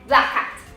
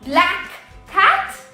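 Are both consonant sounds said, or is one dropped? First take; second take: dropped; both. First: One k sound is dropped between words. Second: Both k sounds are pronounced separately. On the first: The speaker calls it right. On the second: The speaker calls it wrong.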